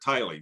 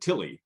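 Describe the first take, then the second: First: The first syllable has a long vowel, like 'tie'. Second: The first syllable has a short vowel, like 'till'. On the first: This is how local people say the name. "the local people pronounce it Tiley" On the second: This is how a family descendant says the name. "she pronounces it Tilly"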